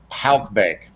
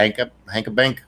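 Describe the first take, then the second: First: "Halk Bank" slow and deliberate, one syllable "halk"; slow, settled "Halk Bank" after the fumble; corrected name. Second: "Hanka Bank" with an extra syllable, said "HANK-uh bank" and unsure; stumbling over "Hanka Bank" as if asking; mispronounced name. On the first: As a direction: carefully land on "Halk Bank", dragging it out. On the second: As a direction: fumble the bank's name as "Hanka Bank", rising at the end. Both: Real, not acted. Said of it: "Ha-, Ha-, Halk Bank".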